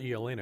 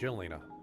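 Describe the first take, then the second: First: The name begins with a Y sound. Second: The name begins with a J sound. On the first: The speaker calls it wrong. "It's not" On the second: The speaker calls it right. "It's supposed to be"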